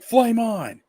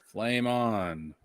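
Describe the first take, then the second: First: It is said with lively, excited energy. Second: It is said flatly, with bored low energy. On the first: "instead of going on there and he's like" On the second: "instead it's like"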